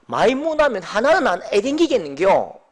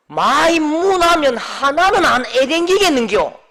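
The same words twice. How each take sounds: First: Level, relaxed Busan dialect line; preacher restating the Busan dialect line calmly. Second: Slow, louder Busan dialect grumble; irritated deacon answering in Busan dialect. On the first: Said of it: "부산 사투리로". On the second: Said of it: "이 부산 말인데요". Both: Retold or imitated.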